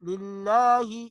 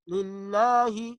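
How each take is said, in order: No difference in how they are said.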